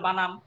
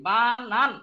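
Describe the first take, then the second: First: The word ends with an m sound. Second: The word ends with an n sound. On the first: The speaker calls it wrong. "অনেকে কি বলে বানাম, ম বলে, এটা ভুল" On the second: The speaker calls it right. "দন্ত ন শেষে"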